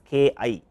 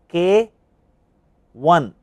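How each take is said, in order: First: The symbol after K is read as eye. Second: The symbol after K is read as one. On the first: The speaker calls it wrong. "do not read it as K I. This is one of the common mistakes" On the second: The speaker calls it right. "this is labeled as K one"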